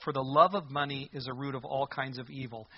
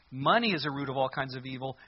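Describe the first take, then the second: First: "love" lifted as the key word; stress on LOVE. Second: "Money" lifted at the very start; stress on MONEY. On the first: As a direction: lean on "love" in "love of money". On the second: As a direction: lean on "Money" as the misquoted word. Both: Shown as a demonstration. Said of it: "He didn't say".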